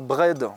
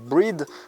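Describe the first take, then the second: First: It is said in a standard English accent. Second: It is said in a South Island New Zealand accent. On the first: "on ne dit pas bread" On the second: "dans l'île sud, on dit breed"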